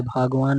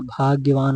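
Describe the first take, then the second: First: भागवान with no y sound; wrong form. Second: भाग्यवान with the gy sounded, loud; correct form. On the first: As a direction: say bhaag-vaan for भागवान. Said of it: "नहीं". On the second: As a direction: say bhaag-ya-vaan for भाग्यवान. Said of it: "होता है". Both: Shown as a demonstration.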